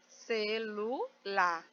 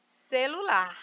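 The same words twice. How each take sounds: First: CELULAR slowly split as ce, lu, lar; syllable by syllable. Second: Said in the usual way. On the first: Shown as a demonstration. Teacher separating the word "celular" for pupils, syllable by syllable.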